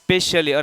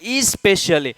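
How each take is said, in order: First: The word starts directly with the s sound. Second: The word starts with an extra e vowel. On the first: "ઘણા બોલતા હોય ને સ્પેશિયલી" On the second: "ઘણા છે એમ બોલતા હોય કે ઈ સ્પેશિયલી"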